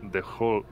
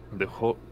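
No difference in how they are said.

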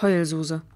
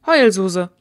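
First: Muttered insult. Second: Low, louder defiant jab; defiant taunt. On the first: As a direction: mutter the insult half to yourself. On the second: Sophie repeats the insult to Reagan's face, defiant. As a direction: throw the insult right back at her. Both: Acted. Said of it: "sag das nochmal".

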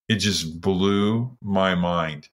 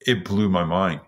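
First: Slow, with "blew" stretched long; drawn-out emphasis. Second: Said in the usual way. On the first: Real, not acted. Veteran amazed by others' stories, "blew" drawn out slowly. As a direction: linger on "blew", then space out "my mind".

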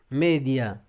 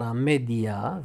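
First: Media with ME stressed, DIA light. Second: A media drawn out, ending on stressed A; stress on final A. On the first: Teacher models the noun media, stressed on E. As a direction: lean on the E of Media. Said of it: "cu accent pe E". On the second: Teacher models the verb a media, stressed on A. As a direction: hold the last A of a media. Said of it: "verbul a media, cu accent pe A". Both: Shown as a demonstration.

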